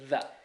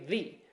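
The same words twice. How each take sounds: First: The vowel is a short 'uh' sound. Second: The vowel is a long 'ee' sound. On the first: A consonant sound comes next. "If a consonant comes next, you say the" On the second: A vowel sound comes next. "if a vowel comes next, you say the"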